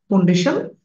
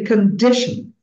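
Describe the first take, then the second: First: The stress is not on the middle syllable. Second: The stress is on the middle syllable. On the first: The speaker calls it wrong. "not condition" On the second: The speaker calls it right. "The middle one will be stressed"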